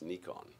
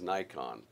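First: The name is said the non-American way. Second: The name is said the American way. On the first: "Pretty much everywhere else in the world, it's Nikon" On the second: "If you're in the United States, you pronounce it as Nikon"

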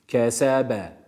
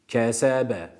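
The two takes are said the same way.

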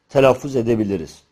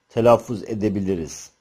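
No difference in how they are said.

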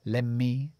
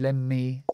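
No difference in how they are said.

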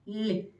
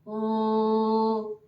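First: The consonant is soft, palatalized. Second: The consonant is hard, not palatalized. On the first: "м'якого" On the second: "твердого приголосного"

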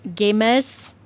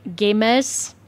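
First: The name is said imitating an Australian accent. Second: The same.

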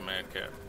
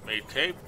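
First: The name is said with short vowels. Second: The name is said with long vowels. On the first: The speaker calls it right. "it's gotta be Madcap" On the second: The speaker calls it wrong. "Made Cape? Nope"

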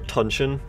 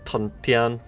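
First: The second syllable sounds like 'shin'. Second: The second syllable sounds like 'tian'. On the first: This is the common modern pronunciation. The speaker calls it wrong. "you'll hear Tunshin" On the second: This is the proper Chinese pronunciation. The speaker calls it right. "the actual proper Chinese is Tuntian"

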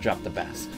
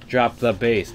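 First: Bass rhymes with mass, as the fish. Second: Bass rhymes with face, as in music. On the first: It refers to a fish. The speaker calls it wrong. "That'd be fish" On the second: It refers to low-pitched sound. The speaker calls it right. "It says in bass music"

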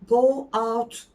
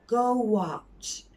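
First: The two words are said separately. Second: A w-like sound links the two words. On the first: The speaker calls it wrong. "Go out değil" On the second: The speaker calls it right. "Orada sanki aralarında V varmış gibi"

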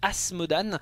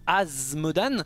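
First: The consonant before the m sounds like s. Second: The consonant before the m sounds like z. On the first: This is how the French version says the name. "et en français, eh bien, on a mis le S" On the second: This is how English speakers say the name. "en anglais il le prononce Asmodan"

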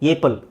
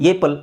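First: The first vowel is an 'ay' sound. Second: The first vowel is an 'ay' sound.

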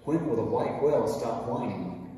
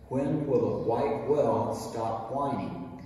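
First: It is said very fast. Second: It is said fast.

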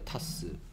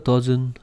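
First: It is said as a short 'tas'. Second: It is said as English 'dozen'. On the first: The speaker calls it wrong. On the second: The speaker calls it right.

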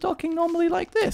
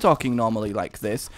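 First: The voice is at a slightly raised pitch. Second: The voice is at its usual pitch. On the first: "I'm slightly sort of a little bit higher pitch" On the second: "if I'm talking normally like this"

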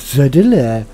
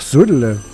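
First: The word is said in an exaggerated, mocking way. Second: The word is said in a plain, neutral way. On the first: The speaker calls it wrong. "nicht Södele" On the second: The speaker calls it right. "ganz normal"

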